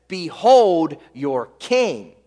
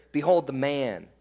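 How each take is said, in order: First: BEHOLD and KING drawn out slowly; deliberately provocative. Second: Low, softened, matter-of-fact quote; no danger. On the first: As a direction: proclaim "Behold your king" slowly, leaning on "Behold". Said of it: "This is on purpose". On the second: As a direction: say it quietly, as nothing to fear. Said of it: "There's no danger here". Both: Retold or imitated.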